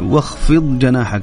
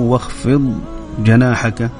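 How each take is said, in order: First: The two words run together with no pause. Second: There is a brief pause after the first word. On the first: The speaker calls it right. "صحيح يعني واخفض جناحك على طول" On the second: The speaker calls it wrong. "كأنه في سكت كده عملت به"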